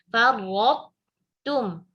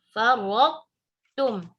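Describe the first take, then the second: No difference in how they are said.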